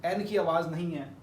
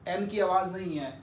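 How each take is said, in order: The two takes are said the same way.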